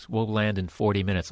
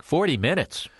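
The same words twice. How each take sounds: First: Said in the usual way. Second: High, rising disbelief on FORTY MINUTES; incredulous echo. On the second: Acted. Anxious passenger echoing the pilot's forty minutes, incredulous. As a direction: repeat "forty minutes" as a startled question.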